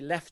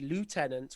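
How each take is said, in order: First: It is said the British way, unlike spelling. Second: It is said the American way, following spelling. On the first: "but we say lieutenant" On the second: "in the U S, they say lieutenant, which is how it looks in English"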